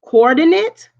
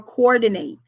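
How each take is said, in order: First: Coordinate with a clipped -nit end, said higher and louder; noun coordinate. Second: Coordinate with a full -nate ending; verb coordinate. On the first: Teacher repeating coordinate for the class. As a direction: say coordinate as the math term, punchy. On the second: Teacher contrasting coordinate with the math term. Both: Shown as a demonstration. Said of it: "So let me say that again".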